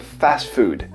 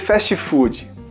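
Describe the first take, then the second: First: It is said with an English accent. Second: It is said with a Brazilian accent.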